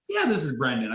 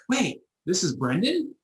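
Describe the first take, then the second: First: Said in the usual way. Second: High, slow startled question; surprised realization. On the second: Retold or imitated. Caller realising he's speaking to Brendan, high slow surprise.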